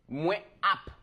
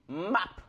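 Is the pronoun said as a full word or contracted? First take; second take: full; contracted. First: The pronoun is said as a separate full syllable. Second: The pronoun is shortened and merged into one syllable. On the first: "ils disent moins app" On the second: "au lieu d'écrire moins app comme ça, tu peux dire map"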